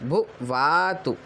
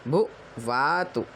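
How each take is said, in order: Both takes have the same delivery.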